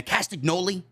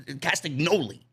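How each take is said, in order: First: Said in the usual way. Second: "Castagnoli" with weight on the "no"; stress on NOLI. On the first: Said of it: "How do they say it". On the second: Shown as a demonstration. Host working out the wrestler's name, stress on "no" in "Castagnoli". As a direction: lean on the "no" in "Castagnoli". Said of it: "They usually put an emphasis on the".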